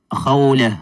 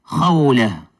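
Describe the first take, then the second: Both takes have the same delivery.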